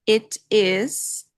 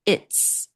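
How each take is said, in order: First: It is said as two full separate words. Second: It is contracted into one short syllable. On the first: "It is vira it's" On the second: "It is vira it's"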